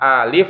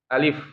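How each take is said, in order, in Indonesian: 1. Vokalnya dibaca panjang. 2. Vokalnya dibaca pendek. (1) "Bukan alif ya, Kalau alif itu panjang tuh" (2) "tapi alif ya"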